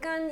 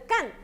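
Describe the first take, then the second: First: The syllable has a high level tone. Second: The syllable has a sharply falling tone. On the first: It means dry. "일성으로 읽으면" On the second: It means to do. "사성으로 읽으면"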